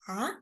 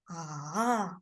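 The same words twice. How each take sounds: First: The pitch rises from middle to high. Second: The pitch falls low, then rises again. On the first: "So it's rising tone" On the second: "So it's falling down and rising up"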